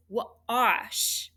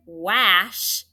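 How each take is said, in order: First: Wash drawn out slowly with ah; correct ah vowel. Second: Wash mispronounced with a as in apple; wrong short-a vowel. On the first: Teacher showing how wash is said, slow ah vowel. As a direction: stretch wash, w then ah-sh. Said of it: "this is wash". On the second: Teacher showing what wash isn't, short-a vowel. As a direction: punch wash loudly with short a. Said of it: "so this isn't wash". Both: Shown as a demonstration.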